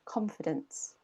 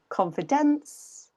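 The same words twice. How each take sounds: First: The stress is on the first syllable. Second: The stress is on a later syllable. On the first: The speaker calls it right. "con is a bit higher, a bit louder" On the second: The speaker calls it wrong. "native English speakers will hear a different word"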